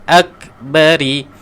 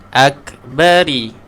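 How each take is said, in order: Both takes have the same delivery.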